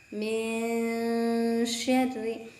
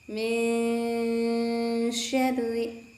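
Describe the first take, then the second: Both takes have the same delivery.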